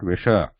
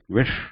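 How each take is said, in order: First: It ends with an extra vowel sound added. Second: It ends in a sudden stop without a vowel. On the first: The speaker calls it wrong. "not wisher. We don't add any vowel to it" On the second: The speaker calls it right. "consonants without vowels are pronounced with a stress at the uh, sudden stop"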